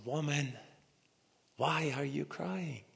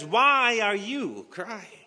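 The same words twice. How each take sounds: First: Soft, tender question; gentle greeting. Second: Slow, higher, louder angel asking why; angel's question. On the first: Jesus gently greeting weeping Mary, soft and tender. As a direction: greet her softly and kindly. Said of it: "And he greeted her". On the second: Angel to weeping Mary, slow high question. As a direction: call out the question slowly from above. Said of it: "The angel spoke to Mary and says". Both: Acted.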